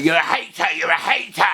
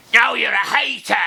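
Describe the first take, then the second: First: Mild mock yell of critics; mock accuser. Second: Much higher, teasing comeback; mocking retort. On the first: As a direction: fling the accusation back. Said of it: "if you hammer it". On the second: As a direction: turn it back on them, cheeky. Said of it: "well, if you hammer it".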